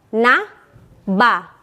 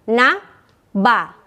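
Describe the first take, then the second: The two takes are said the same way.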